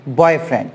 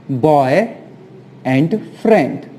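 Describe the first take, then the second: First: Said in the usual way. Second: Put-on Boy, pause, and friend, slowly; "Boy and friend" said as separate slow words; split apart. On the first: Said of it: "joined again after split". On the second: Shown as a demonstration. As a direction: pull boyfriend apart into two words. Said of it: "splits boyfriend into parts".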